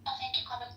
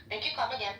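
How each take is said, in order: First: Mock Indian accent on thank you, come again; light imitation of an Indian shopkeeper in an Indian accent. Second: A mock Indian accent that drifts toward Chinese; a light Indian accent that slips into sounding Chinese; Indian accent, drifting Chinese. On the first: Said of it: "do that Indian accent again". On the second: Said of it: "That is more like Chinese". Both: Shown as a demonstration.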